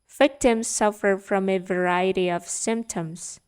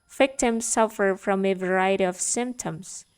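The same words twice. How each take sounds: Both takes have the same delivery.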